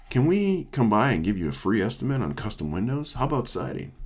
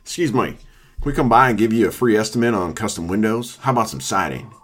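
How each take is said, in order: First: Weak sales caller. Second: Lightly voiced trashy salesman with a southern twang; a hint of a pushy southern door-to-door pitch. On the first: Retold or imitated. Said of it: "it doesn't sound like that". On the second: Redoing the window salesman's pitch, in a trashy southern twang. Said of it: "meant to be trashy".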